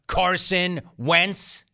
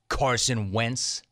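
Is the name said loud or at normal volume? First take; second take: loud; normal. First: The name is said much louder. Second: The name is said at normal volume.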